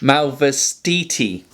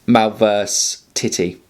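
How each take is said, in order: First: The name is given a flowing Italian-style pronunciation. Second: The name is read out as spelled, in chunks. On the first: "I'm going to go try and style this out a bit" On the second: "as it looks, Malverse Titty is basically how it looks"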